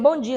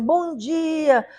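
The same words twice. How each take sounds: First: It is said flatly, without any feeling. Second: It is said warmly and sincerely.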